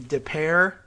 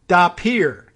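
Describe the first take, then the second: First: The second word does not sound like 'pier'. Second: The second word sounds like 'pier'. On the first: The speaker calls it wrong. "I thought that might be De Pere" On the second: The speaker calls it right. "Like you to get on your boat, you have to walk on the pier"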